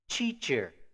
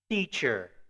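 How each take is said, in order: First: The first sound is a 'ch' sound. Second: The first sound is a plain 't' sound. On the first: The speaker calls it wrong. "que a gente comete esse erro, né, de falar teacher?" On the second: The speaker calls it right. "o T e o D vão ter a pronúncia de t"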